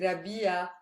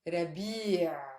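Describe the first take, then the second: First: The word ends in an open a vowel. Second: The word ends in a throat consonant. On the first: The speaker calls it wrong. "I'm not saying a at the end" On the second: The speaker calls it right. "I'm saying the عين, which is a consonant"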